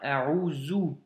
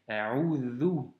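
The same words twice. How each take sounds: First: The middle consonant is a buzzing z sound. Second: The middle consonant is a voiced th sound. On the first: The speaker calls it wrong. "ou bien A'udhu" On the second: The speaker calls it right. "c'est un vel et donc c'est A'udhu"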